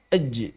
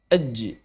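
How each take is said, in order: First: The final j bounces out strongly and firmly. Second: The final j bounces out strongly and firmly.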